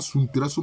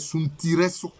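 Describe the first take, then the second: First: The name is said in three syllables. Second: The name is said in four syllables. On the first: The speaker calls it wrong. "ce n'est pas Suntresso" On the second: The speaker calls it right. "La bonne prononciation, c'est Suntiresso"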